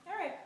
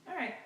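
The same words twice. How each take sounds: No difference in how they are said.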